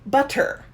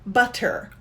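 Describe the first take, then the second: First: The middle consonant is a clear T sound. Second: The middle consonant is a clear T sound.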